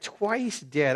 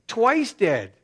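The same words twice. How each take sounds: First: Said in the usual way. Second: "Twice dead" hit high and loud, both words punched; stress on Twice dead. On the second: Shown as a demonstration. Preacher hammering the phrase to his congregation, "Twice dead" loud. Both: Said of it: "look at the way he describes it".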